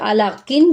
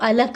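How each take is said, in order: First: The word ends with its full vowel ending sounded. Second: The word ends on a bare consonant, ending dropped. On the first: The reading continues without a stop. "जो था" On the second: The reader stops at the end of the verse. "वक्फ की सूरत में हमने इसको जज़म से बदल दिया"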